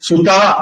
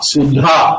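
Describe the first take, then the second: First: The middle consonant is a plain unaspirated d. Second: The middle consonant is an aspirated dh. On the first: It means daughter. "சுதா அப்படின்னு சொன்னா பொண்ணு" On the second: It means nectar. "அது வந்து தா சுதா, அந்த உச்சரிப்பு வேற"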